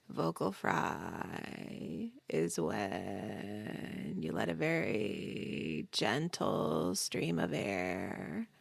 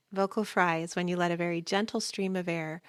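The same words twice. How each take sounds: First: Very low, creaky, drawn-out vocal fry. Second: Said in the usual way. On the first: Shown as a demonstration. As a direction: drop to your lowest pitch and creak slowly, softly. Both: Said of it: "it sounds like this".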